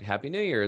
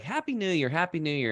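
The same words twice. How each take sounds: First: Said in the usual way. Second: High, bright, heartfelt Happy New Year; genuine cheerful greeting. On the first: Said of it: "some people would be like". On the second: Retold or imitated. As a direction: greet back with real joy. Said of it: "they were really genuine".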